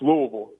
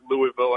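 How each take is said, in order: First: It is said swallowed, with a throaty local sound. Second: It is said the way an outsider says it. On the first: The speaker calls it right. "hey, it's, it's Louisville" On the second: The speaker calls it wrong. "wait for a Yankee to come down here and pronounce it Louisville"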